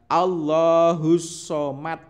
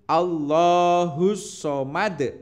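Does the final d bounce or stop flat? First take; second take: flat; bounce. First: The final d stops flat without bounce. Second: The final d is released with a bounce. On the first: The speaker calls it wrong. "Tidak boleh dibaca" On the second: The speaker calls it right. "dibaca memantul"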